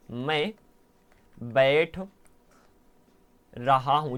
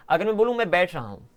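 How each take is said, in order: First: Each word set apart by long pauses; slow word by word. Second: Said in the usual way. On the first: Shown as a demonstration. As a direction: spell it out slowly, one word at a time. (धीरे धीरे, हर शब्द अलग करके) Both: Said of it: "यहाँ पर ध्यान सुनो".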